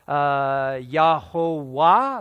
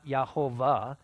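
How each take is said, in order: First: The middle consonant is a W sound. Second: The middle consonant is a V sound. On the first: The speaker calls it right. "the Vav had a W sound, was pronounced with a wa" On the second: The speaker calls it wrong. "not Yahovah, because no V sound would have been a wa sound"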